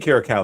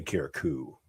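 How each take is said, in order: First: Kira Cow ending in "ow"; pronunciation Kira Cow. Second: Kira Koo ending in "oo"; pronunciation Kira Koo. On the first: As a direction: rhyme the end of Kira Cow with "now". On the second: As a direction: rhyme the end of Kira Koo with "too". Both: Shown as a demonstration. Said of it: "sounds better than Kira Koo".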